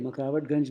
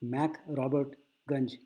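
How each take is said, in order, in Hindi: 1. नाम हिंदी के मिले-जुले रूप में बोला गया है। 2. नाम अंग्रेज़ी जैसे रूप में बोला गया है। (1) "मकरावटगंज बोलते हैं" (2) "असल में इसका नाम है"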